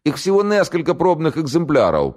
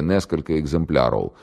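First: High southern Ukrainian-tinged voice saying "несколько экземпляров"; southern accent. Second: Said in the usual way. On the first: A narrator's reading. The prisoner hastening to inform the major, in a southern accent. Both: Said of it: "по-южному выговаривая".

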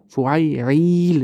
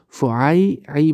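First: فعیل with the last syllable drawn out into a long "iil"; long added ya. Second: Said in the usual way. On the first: Shown as a demonstration. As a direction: stretch the final ee of فعیل, slowly, to show the extra ya. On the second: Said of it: "بود در اونجا".

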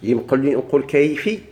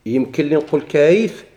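First: كيفي ends on a kasra vowel; kasra form. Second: كيف ends on a sukun, said slowly; sukun form. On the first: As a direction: try the ending كيفي as the allowed form. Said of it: "يجوز". (كيفي بالكسر) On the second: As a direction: ask whether كيف can be said with a sukun. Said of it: "أنا ماشي التقاء ساكنة". (كيف بالسكون) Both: Shown as a demonstration.

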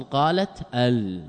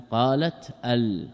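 First: Said in the usual way. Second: Slow demo. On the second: Shown as a demonstration. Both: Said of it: "تاء ساكنة واللام ساكنة".

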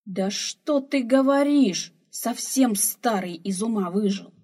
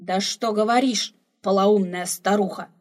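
First: Put-on slow, loud, higher old woman scoffing; a loud, mocking rebuke to the old man; scornful scolding. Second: Put-on loud, scolding old man; a loud, exasperated rebuke; indignant exclamation. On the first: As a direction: cut him down with scorn. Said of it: "вмешалась старуха". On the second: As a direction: snap back at the old woman loudly. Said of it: "воскликнул старик".

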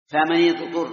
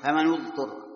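First: فمن اضطر as "famani-ḍturra", louder, i on the nun; kasra reading. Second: فمن اضطر as "famanu-ḍturra", u on the nun; damma reading. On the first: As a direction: firmly link فمن to اضطر with a short i. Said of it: "هذه واحد". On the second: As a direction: link فمن to اضطر with a short u. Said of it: "الضم والكسر بالنون". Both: Shown as a demonstration.

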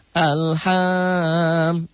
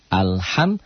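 First: "Alham" drawn out high and chanted, as a mistake; over-sing "Alham", holding it long; wrongly held, sing-song. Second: "Alham" with the final m short, not held; clear mim, idhar. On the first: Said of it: "Mentang-mentang berlagu jadi belagu". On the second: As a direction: end "Alham" promptly on a clear m. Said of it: "hukum mimati idhar. Jangan ditahan". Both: Shown as a demonstration.

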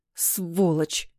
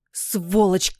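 First: Contained spite, teeth clenched; angry hiss. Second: Mild outraged screech, acted; indignant cry at her husband; angry screech. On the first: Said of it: "стиснув зубы, зашипела она". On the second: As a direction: spit it out as an outraged wife. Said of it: "заверещала Злата". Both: A narrator's reading.

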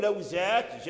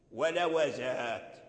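First: لوزات as law-zāt, wāw without a vowel; silent wāw. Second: Slow, lower ولوزات as wa-la-wa-zāt; opened wāw. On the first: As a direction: close the first syllable of لوزات on the wāw. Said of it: "وإسكان الواو". (لوزات بإسكان الواو) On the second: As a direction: give the wāw in ولوزات a short a, then hold the last ā. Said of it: "فتح الواو". (ولوزات بفتح الواو) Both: Shown as a demonstration.

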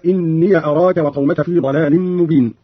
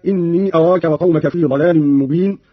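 First: إني said "inniya" before أراك; yaa with fatha. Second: Said in the usual way. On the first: Shown as a demonstration. Teacher demonstrating Qalun's reading, إني as "inniya". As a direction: end إني on a short "ya", no long ee. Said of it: "بفتح ياء الإضافة هكذا". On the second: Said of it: "قرأ قالون بفتح ياء الإضافة".

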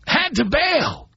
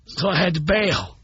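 First: Slow emphatic echo of the line; slow, drawn-out repeat. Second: Said in the usual way. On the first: Real, not acted. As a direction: repeat it slowly, a bit higher.

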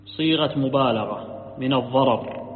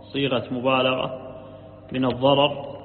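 Both takes have the same delivery.

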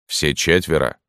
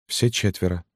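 First: Sergeant questioning. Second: Small, slightly raised woman's voice; widow answering. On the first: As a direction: question her in the sergeant's own-pitched voice. (вопрос сержанта, твёрдым голосом) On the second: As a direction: confirm it meekly and more softly. (тихий ответ вдовы) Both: A narrator's reading.

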